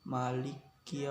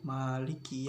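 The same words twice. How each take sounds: First: The first vowel is clipped short. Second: The first vowel is held long. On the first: "apabila dibacanya itu pendek, itu tidak apa-apa" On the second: "ma itu panjang"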